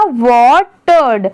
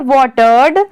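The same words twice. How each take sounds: First: वाटर्ड drawn out slowly, each part joined; slow blended reading. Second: वाटर्ड said briskly in one go; quick reading. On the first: (वाटर्ड को धीरे-धीरे जोड़कर पढ़ना) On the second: (वाटर्ड को फटाक से पढ़ना) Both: Shown as a demonstration. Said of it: "अगर इसको फटाक से पढ़ेंगे".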